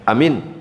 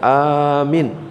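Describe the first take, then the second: First: Both vowels are short. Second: Only the first vowel is long. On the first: It means honest. "Pendek misalkan" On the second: It means asking for protection. "Kalau A-nya yang panjang"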